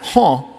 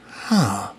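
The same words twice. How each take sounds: First: It sounds puzzled and questioning. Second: It sounds like sudden understanding. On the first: The listener does not understand. "Huh? Yeah, me too" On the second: The listener now grasps the idea. "it all starts to click together"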